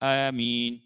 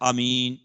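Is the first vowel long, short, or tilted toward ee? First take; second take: tilted; short. First: The first vowel is tilted toward an ee sound. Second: The first vowel is kept short. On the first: "الف کو یا کی طرف تھوڑا سا مائل کر کے" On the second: "قصر کے الف کو دراز نہ کرے"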